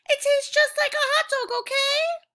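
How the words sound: It is read with angry excitement.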